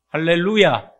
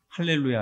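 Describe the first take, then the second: First: The word is said with Thai-style tonal pitch changes. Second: The word is said with fairly flat pitch. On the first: This is the greeting as done in Thailand. "태국은 할렐루야에다 성조를 넣습니다" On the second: This is the usual greeting in Korea. "한국에서는 여러분들 보통 하시면 할렐루야 하시잖아요"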